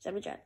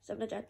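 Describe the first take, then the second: No difference in how they are said.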